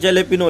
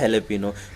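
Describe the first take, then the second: First: The word begins with a J sound. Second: The word begins with an H sound. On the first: The speaker calls it wrong. "लिखा हुआ था वो जेलेपिनो" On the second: The speaker calls it right. "लेकिन वो उसको बोला जाता है हेलेपिनो"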